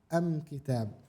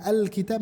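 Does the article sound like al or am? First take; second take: am; al. First: The article is said with a final m sound. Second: The article is said with a final l sound. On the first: This is how some regions of Yemen say it. "mereka bilang am kitab" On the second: This is the usual standard form. "kalau misalnya mau baca al kitab"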